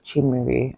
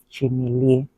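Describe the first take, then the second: First: The name is said the Enugu way. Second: The name is said the Anambra way. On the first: "Chimere is more common with people from Enugu State" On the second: "Chimile, on the other hand, is more common with people from Anambra State"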